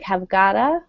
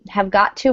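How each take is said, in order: First: The words are reduced and run together. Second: The words are said fully and separately.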